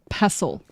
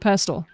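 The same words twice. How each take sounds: First: The T in the middle is left silent. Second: The T in the middle is clearly pronounced. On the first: The speaker calls it wrong. "It's not pestle. That just sounds weird" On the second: The speaker calls it right. "We actually enunciate the T"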